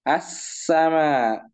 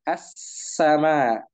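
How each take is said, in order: Both takes have the same delivery.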